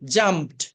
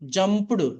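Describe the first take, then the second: First: The ending is a plain t sound. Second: The ending is an extra syllable. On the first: The speaker calls it right. "ఈడిని టాలా చెప్పాలండి" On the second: The speaker calls it wrong. "ఇలా చదవకూడదు"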